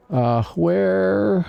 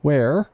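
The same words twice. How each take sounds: First: "where" said so loosely it sounds like "whore"; a sloppy "where" that comes out as "whore"; slurred where. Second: "Where?" said clearly with a proper "wair" vowel and a rise; careful, corrected "Where?" asked as a question. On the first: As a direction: let "where" blur toward "whore". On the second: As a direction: fix it to a clean "where". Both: Real, not acted. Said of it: "Not whore".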